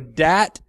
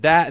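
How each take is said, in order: First: The first sound is a hard d. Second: The first sound is a soft th.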